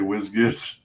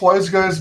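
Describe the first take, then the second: First: The vowels are short, like 'whiz-giz'. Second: The vowels are long, like 'wise guys'. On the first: Other people say it this way. The speaker calls it wrong. "I love hearing people say whiz-giz" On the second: This is the intended pronunciation. The speaker calls it right. "pronounced wise guys"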